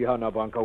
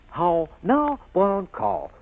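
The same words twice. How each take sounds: First: The words are slack, flat and poorly projected. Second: The words are crisp, rounded and clearly projected. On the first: This is how the pupil actually speaks. The speaker calls it wrong. "And what comes out?" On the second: This is the proper way to speak. The speaker calls it right. "I try to teach you how to speak. How to speak. Like this"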